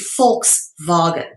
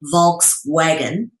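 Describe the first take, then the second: First: The word begins with an F sound. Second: The word begins with a V sound. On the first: The speaker calls it right. "but it's actually Volkswagen ... the V is pronounced as an F" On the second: The speaker calls it wrong. "most people would say Volkswagen"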